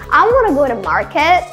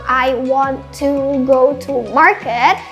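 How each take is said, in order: First: Want to is reduced to one word, wanna. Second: Want to is said as two full words. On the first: "ganti dengan wanna" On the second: "mau bilang I want to go to market"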